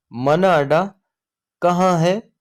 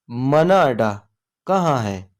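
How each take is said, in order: First: मना अडा कहाँ है? split in two, कहाँ lifted high on a rise; question modelled. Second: Said in the usual way. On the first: Shown as a demonstration. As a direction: model the question slowly in two halves for the class. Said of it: "teacher models the question slowly". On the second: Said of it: "same question said normally".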